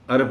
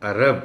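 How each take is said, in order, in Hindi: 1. r के बाद कोई स्वर नहीं है। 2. r के बाद एक स्पष्ट a स्वर है। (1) "अरब नहीं है" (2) "रे पर ज़बर को ख़ास तौर पर एहतियात के साथ"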